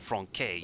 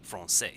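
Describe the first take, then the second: First: The middle consonant is a hard K sound. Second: The middle consonant is a soft S sound. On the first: The speaker calls it wrong. "You don't say franquais" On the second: The speaker calls it right. "you pronounce it as an S"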